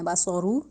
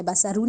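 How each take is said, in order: First: باسا رو with rounded heavy ص and ر /baso ru/; heavy tajweed letters; correct heavy take. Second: باسا رو said with a light ص; wrong thin take. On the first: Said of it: "رو کو بھی موٹا ہی رکھنا ہے". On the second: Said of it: "باسا رو نہیں کہنا". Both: Shown as a demonstration.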